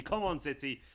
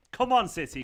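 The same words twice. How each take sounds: First: Said in the usual way. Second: Loud rallying call to the team; cheering. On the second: Real, not acted. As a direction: urge City on, louder. Cheering his team on stream.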